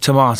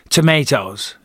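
First: It is said with a British accent. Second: It is said with an American accent.

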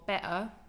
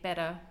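First: The t is replaced by a glottal stop. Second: The t is a soft, d-like flap. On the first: "better with a glottal T" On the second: "I might say better now"

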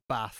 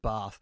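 First: It is said with a northern English vowel. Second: It is said with a southern English vowel.

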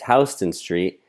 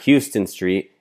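First: Pronounced the way locals say it. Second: Pronounced the way non-locals say it. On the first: The speaker calls it right. "it's Houston Street" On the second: The speaker calls it wrong. "it's not Houston Street"

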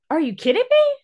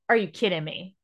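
First: It is said in an excited tone. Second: It is said in an upset tone.

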